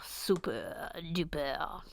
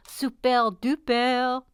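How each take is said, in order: First: Low, soft, slow super duper; drawn-out catchphrase. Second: Slow, stretched, put-on super duper; put-on catchphrase voice. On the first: Pretend. Host savouring a catchphrase, slow and low. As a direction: stretch it out quietly and low. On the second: Host repeating a catchphrase, drawn-out put-on voice. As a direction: draw it out in a silly voice.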